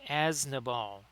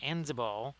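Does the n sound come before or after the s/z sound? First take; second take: after; before. First: The s sound comes before the n sound. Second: The n sound comes before the z sound. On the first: The speaker calls it right. "So it's actually a- Asnabal" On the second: The speaker calls it wrong. "I've been saying Anzabal, but there's actually I've I've kind of misplaced the N and the Z"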